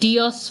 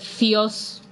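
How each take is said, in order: First: The word begins with a hard d sound. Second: The word begins with a soft th sound. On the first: This is the ancient pronunciation. "ancient Greek ... pronounced b and d" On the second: This is the modern pronunciation. "the delta becomes a th sound"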